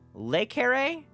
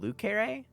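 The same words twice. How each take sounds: First: The first word sounds like 'lay'. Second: The first word sounds like 'loo'. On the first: The speaker calls it right. "that's how it would actually be pronounced" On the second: The speaker calls it wrong. "they've been saying Le Carré"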